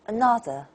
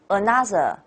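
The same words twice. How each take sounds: First: The middle syllable stands out over weak ones. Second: All syllables are said with even strength. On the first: The speaker calls it right. "English way is another" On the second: The speaker calls it wrong. "You do not say another. That's Chinese"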